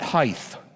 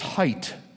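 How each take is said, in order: First: The word does not end with a T sound. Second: The word ends with a clear T sound. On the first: The speaker calls it wrong. "It is not height" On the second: The speaker calls it right. "Make sure you get that T in there"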